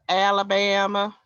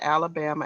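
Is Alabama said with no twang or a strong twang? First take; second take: strong twang; no twang. First: It is said with a strong Southern twang. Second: It is said without a Southern twang. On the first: "not Alabama ... they put that southern, you know, twang to it" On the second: "I said Alabama"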